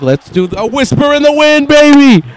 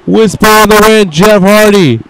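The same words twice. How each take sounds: First: Pitched way up, cocky and playful; cocky high mock quote. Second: Excited commentator call of the move. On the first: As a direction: voice Jeff high and smug, teasing the move. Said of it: "Jeff Hardy's like". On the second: Real, not acted. Calling the move name.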